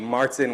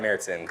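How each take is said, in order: First: The first vowel is an open 'ah' sound. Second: The first vowel is a fronted 'eh' sound. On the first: "it would be Martin without it" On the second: "with the umlaut, it's"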